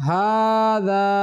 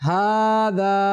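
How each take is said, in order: No difference in how they are said.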